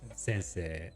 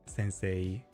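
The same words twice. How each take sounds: First: The final vowel is a plain 'eh'. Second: The final vowel is not a plain 'eh'. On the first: The speaker calls it right. "but it's actually right. It's just like eh" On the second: The speaker calls it wrong. "I was always pronouncing like sensei as like sensei"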